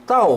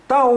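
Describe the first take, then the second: The two takes are said the same way.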